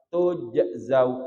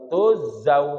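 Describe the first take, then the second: First: A bouncing j sound comes before the z. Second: No j sound comes before the z. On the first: The speaker calls it right. "Yang ada kol-kolah, jim bertemu dengan zai" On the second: The speaker calls it wrong. "tuzau katanya"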